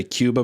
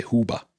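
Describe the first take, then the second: First: Said in the usual way. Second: Cuba said as "HOO-ba"; Cuban-style pronunciation. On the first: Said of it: "but they say Cuba". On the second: Shown as a demonstration. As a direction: swap the K of Cuba for a breath, "HOO-ba". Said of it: "whenever people say Cuba, but they say".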